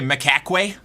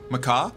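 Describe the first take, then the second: First: The word ends with a clear k sound. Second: The word ends without a final k sound. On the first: The speaker calls it right. "Would that one be a better uh, pronunciation?" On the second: The speaker calls it wrong. "I figured that it was one of those like silent endings things"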